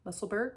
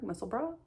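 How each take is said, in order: First: The word ends with a 'berg' sound. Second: The word ends with a 'bra' sound. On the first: "I don't even know if I'm saying that right" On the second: "it's actually pronounced muscle bra"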